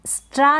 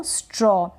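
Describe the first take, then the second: First: स्ट्रा ending in an open "aa"; wrong aa vowel. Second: स्ट्रॉ ending in a rounded "aw"; correct aw vowel. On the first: Teacher warning learners, mispronounced स्ट्रा with "aa". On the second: Teacher correcting learners, स्ट्रॉ with rounded "aw". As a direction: say स्ट्रॉ as "straw", not "straa". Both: Shown as a demonstration. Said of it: "स्ट्रा ना पढ़ें इसको".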